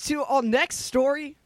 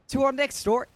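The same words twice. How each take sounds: First: It is said in a put-on British accent. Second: It is said in the speaker's normal accent.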